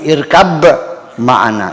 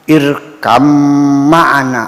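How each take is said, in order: First: The first word ends with a b sound. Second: The first word ends with an m sound. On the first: This is the original form before tajwid rules. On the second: This is the reading with tajwid assimilation rules.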